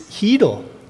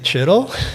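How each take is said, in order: First: The name begins with an h sound. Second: The name begins with a ch sound. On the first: The speaker calls it right. "It's just the h" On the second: The speaker calls it wrong. "It's not Chittle. You don't pr- pronounce the ch"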